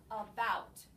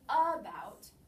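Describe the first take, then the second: First: The stress is on the second syllable. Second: The stress is on the first syllable. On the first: The speaker calls it right. "we say about. So the bout is the accented syllable" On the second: The speaker calls it wrong. "we do not say about"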